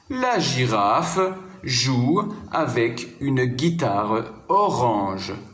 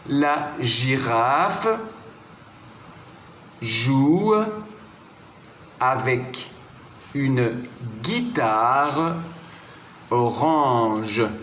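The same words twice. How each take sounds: First: The sentence is read at normal speaking speed. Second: The sentence is read slowly and calmly. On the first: "je peux dire ces trois phrases à vitesse normale" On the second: "que je vais relire tranquillement"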